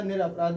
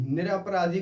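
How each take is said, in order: First: निरपराध ending on dh; correct form. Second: निरपराधी with a final long ee; wrong form. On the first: Teacher confirming the word, निरपराध ending on dh. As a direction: say निरपराध with no final ee. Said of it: "निरपराध एकदम सही है". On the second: Teacher rejecting a word, निरपराधी with final ee. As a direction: say निरपराधी ending in "-dhee". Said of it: "निरपराधी कोई शब्द नहीं होता". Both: Shown as a demonstration.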